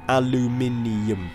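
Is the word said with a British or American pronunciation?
British. It is said with a British pronunciation. The speaker calls it right. "Pronounce it right"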